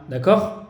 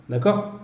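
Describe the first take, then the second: No difference in how they are said.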